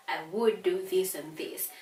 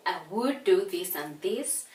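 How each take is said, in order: First: "would" stressed, tune falls at the end; sample answer with a falling tune. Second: "would" stressed, rising tune; sample answer with a rising tune. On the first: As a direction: close firmly on "this". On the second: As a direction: lift the end of "this" upward. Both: Shown as a demonstration. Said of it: "you're going to respond as you".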